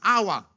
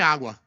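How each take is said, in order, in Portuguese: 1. A palavra é balbuciada, como a fala de uma criança pequena. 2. A palavra é pronunciada com clareza, como a fala de um adulto.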